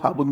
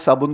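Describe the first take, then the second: First: The word begins with an h sound. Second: The word begins with an s sound. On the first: "हाबुन बोलता है" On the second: "वो साबुन को"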